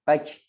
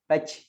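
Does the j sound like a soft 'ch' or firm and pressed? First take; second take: soft ch; soft ch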